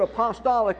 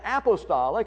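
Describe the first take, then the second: First: It uses the speaker's own, nonstandard pronunciation. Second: It uses the usual, standard pronunciation. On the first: It means simply from the apostles, without denominational ties. "I say the word apostolic" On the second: It carries denominational associations. "Apostolic is really the correct pronunciation of the word"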